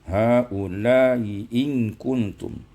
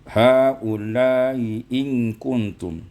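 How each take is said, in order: Both takes have the same delivery.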